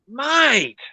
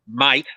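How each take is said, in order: First: It sounds like an exasperated, disapproving reproach. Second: It sounds like a hard, threatening challenge. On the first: The listener did something stupid. "you do something stupid and they go" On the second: It is a warning or challenge. "that's very different to someone looking at you going"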